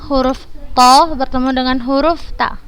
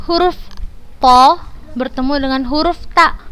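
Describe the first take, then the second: No difference in how they are said.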